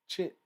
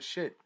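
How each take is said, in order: First: The word starts with a hard 'ch' sound. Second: The word starts with a soft 'sh' sound.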